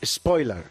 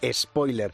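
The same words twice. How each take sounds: First: It begins directly with an s sound. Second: It begins with an added e vowel sound. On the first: This is the English form of the word. "no es spoiler en inglés" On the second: This is the Spanish-adapted form of the word. "sino que es spoiler, con tilde en la O y ES"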